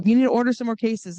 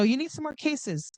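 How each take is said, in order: First: Louder, firm push on "need"; firm telling. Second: Said in the usual way. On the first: Shown as a demonstration. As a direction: tell them, don't ask, louder on "need". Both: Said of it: "And I go".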